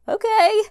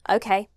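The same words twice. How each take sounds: First: It sounds anxious, nervous and uncertain. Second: It sounds confident and full of conviction.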